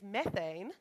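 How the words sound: It is said in an American accent. "for the American translation"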